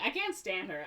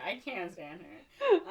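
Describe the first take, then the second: First: Said in the usual way. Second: "can't stand her" slow and higher; emphatic repeat. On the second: Real, not acted. Viewer fed up with Ariel, "can't stand her" drawn out emphatically.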